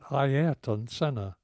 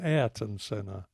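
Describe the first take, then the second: First: The first name is pronounced carefully and fully. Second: The first name is pronounced in a sloppy way. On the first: The speaker calls it right. "I had been talking about Ayrton Senna" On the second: The speaker calls it wrong. "I had become sloppy like a lot of people"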